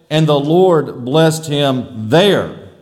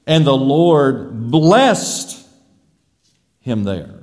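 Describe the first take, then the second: First: Slow phrase landing hard on "there"; stress on there. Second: "blessed" drawn out and rising, pause, low "him there"; stress on blessed. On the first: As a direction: run it together, then stretch and punch "there". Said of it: "We could also say". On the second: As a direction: slowly lift "blessed", then drop "him there". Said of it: "Or we could say". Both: Shown as a demonstration.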